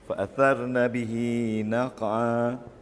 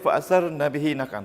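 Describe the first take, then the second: First: The final vowel of bihi is drawn out long. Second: The final vowel of bihi is cut short. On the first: The speaker calls it right. "kena panjang ya" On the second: The speaker calls it wrong. "Tak boleh baca"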